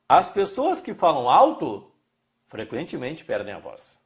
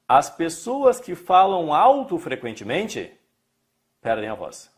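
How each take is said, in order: First: The pause falls before 'frequentemente'. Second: The pause falls after 'frequentemente'. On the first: Loud speakers often lose their voice. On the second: They often speak loudly and lose their voice. "Falam alto frequentemente"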